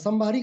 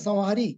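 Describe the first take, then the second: First: The middle consonant is an aspirated bh sound. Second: The middle consonant is a breathy h sound. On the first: The speaker calls it wrong. "सबसे ज्यादा संभारी कह देते हैं लोग" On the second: The speaker calls it right. "संभारी नहीं है संहारी"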